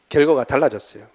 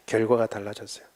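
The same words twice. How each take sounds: First: Said in the usual way. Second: 결과가 달라졌어요 repeated softer, sinking; quiet echo. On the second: Shown as a demonstration. Preacher echoes his point to the congregation, softly. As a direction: let it settle, softly.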